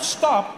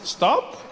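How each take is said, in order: First: It sounds like a firm, forceful command. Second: It sounds like a soft, casual suggestion.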